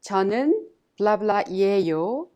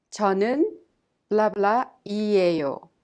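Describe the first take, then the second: First: 저는 blah blah 이에요 with a rising end on blah; rising template. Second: 저는 blah blah 이에요 with a falling end on blah; falling template. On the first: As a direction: say the frame, lifting at the end. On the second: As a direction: say the frame again, falling to close. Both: Shown as a demonstration. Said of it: "you say".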